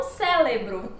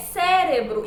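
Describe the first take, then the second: First: "cérebro" with l for r: célebro; wrong pronunciation. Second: "cérebro" with a tapped middle r; correct pronunciation. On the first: Teacher summing up the error, "cérebro" with l. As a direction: say "cérebro" as CÉ-le-bro. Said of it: "e não cérebro". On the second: Teacher summing up, proper "cérebro" with r. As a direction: say "cérebro" as CÉ-re-bro. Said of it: "a forma correta é". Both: Shown as a demonstration.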